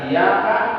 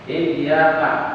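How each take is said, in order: First: The y sound is short and single. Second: The y sound is doubled and held. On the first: We worship the sunlight. The speaker calls it wrong. "kepada matahari atau cahayalah kami menyembah" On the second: You alone we worship. The speaker calls it right. "ada tasdid di situ"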